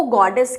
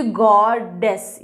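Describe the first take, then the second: First: Said in the usual way. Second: गॉडेस broken in two, "god", then "dess"; split into syllables. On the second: Shown as a demonstration. Teacher counting syllables for students, गॉडेस split into god-dess. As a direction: say गॉडेस slowly, one syllable at a time. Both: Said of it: "यहाँ पे दो syllables हैं".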